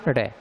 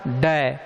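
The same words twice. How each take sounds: First: ड as a light tongue flap; the soft ड, a quick flap. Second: ड as a hard stop, tongue struck firmly; the hard ड, plain and firm; hard retroflex. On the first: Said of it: "कोमल उच्चारण ड". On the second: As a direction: hit ड hard, a full stop. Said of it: "कठोर उच्चारण ड". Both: Shown as a demonstration.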